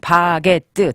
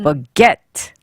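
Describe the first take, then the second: First: All syllables get equal stress. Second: The stress falls on the second syllable. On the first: "한국말로는 바게트... 강세는 똑같아요" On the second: "바가 아니라 ... 약하게"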